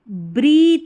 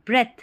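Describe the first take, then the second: First: The vowel is a long 'ee' sound. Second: The vowel is a short 'e' sound. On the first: The speaker calls it wrong. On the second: The speaker calls it right.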